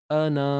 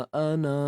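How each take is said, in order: Both takes have the same delivery.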